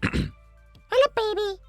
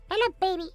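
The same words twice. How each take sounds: First: It is said in a put-on character voice. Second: It is said in a plain voice.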